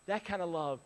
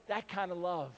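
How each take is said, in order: Both takes have the same delivery.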